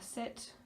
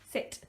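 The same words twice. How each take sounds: First: It is said in a flat, bland tone. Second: It is said in a firm, commanding tone. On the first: The speaker calls it wrong. "if I just do a normal voice to her" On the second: The speaker calls it right. "a big difference there between using an imperative tone of voice"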